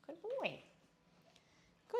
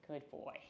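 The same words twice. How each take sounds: First: Much higher, bright praise with a falling tune. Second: Said in the usual way. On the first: Real, not acted. Trainer praising River on release, high and falling. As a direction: reward him with a lifted voice.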